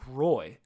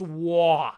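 First: The name is said with an English 'roy' sound. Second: The name is said with a French 'wah' sound. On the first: The speaker calls it wrong. "somebody in the world who has pronounced it Patrick Roy" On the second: The speaker calls it right. "It's pronounced Wah"

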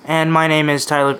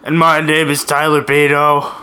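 First: It is said in a plain, neutral tone. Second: It is said in a smug, obnoxious tone.

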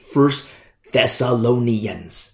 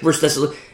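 First: It is said slowly, each syllable enunciated. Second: It is said quickly, syllables run together.

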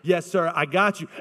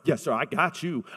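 First: It is said with a sincere, respectful tone. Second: It is said with a sarcastic, disrespectful tone.

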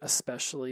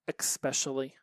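First: It starts with a plain 'esp' sound. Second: It starts with an 'eks' sound, like expecially. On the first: The speaker calls it right. "It's the word especially" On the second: The speaker calls it wrong. "but with an X"

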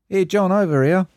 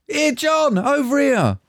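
First: It is said flatly, without emotion. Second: It is said with urgent emotion.

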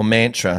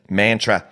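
First: The word is said with a fancier pronunciation. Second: The word is said with a plain local pronunciation. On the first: "Or mantra, however you like to say it. Depends if you're fancy or not" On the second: "I just should say it how I would normally"

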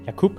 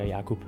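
First: The u syllable carries heavy stress. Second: The u syllable carries only light stress. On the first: The speaker calls it wrong. "Lidt for meget tryk på u'et" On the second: The speaker calls it right. "foretrækker Jakub"

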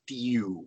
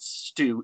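First: It is said with a 'y' sound after the t. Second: It is said without a 'y' sound after the t. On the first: The speaker calls it right. "it's stew with a Y" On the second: The speaker calls it wrong. "it's not stew"

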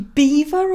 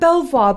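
First: It is said like the word 'beaver'. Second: It is said as spelled, ending in 'vwar'. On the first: This is said to be the actual pronunciation. "it's actually beaver or something" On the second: This is the spelling-based way it is usually said. "I think we call it Belvoir"

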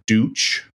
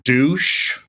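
First: The name ends with a 'ch' sound. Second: The name ends with an 'sh' sound. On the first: The speaker calls it right. "it's actually pronounced properly Dutch" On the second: The speaker calls it wrong. "giggle and be like, douche"

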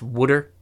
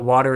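First: It is said in a New Jersey accent. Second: It is said in a standard accent.

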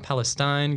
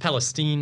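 First: The last syllable has an 'eye' vowel. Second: The last syllable has an 'ee' vowel. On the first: The speaker calls it wrong. "not Palestine. Get it right" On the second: The speaker calls it right. "that I becomes an E"

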